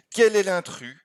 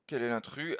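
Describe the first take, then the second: First: Asked high and loud; loud, raised classroom question; emphatic question. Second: Quiet repeat. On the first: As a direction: put the question to the class boldly. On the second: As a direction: repeat it to yourself, softer. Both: Shown as a demonstration.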